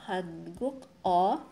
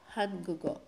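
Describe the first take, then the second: First: The final k stays separate from the vowel. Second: The final sound carries over as g into o. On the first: The speaker calls it wrong. "hindi po ganun ang basa natin" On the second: The speaker calls it right. "pero ang basa natin ay Hangugo"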